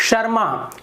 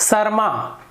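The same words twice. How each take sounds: The two takes are said the same way.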